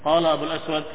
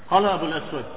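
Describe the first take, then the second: No difference in how they are said.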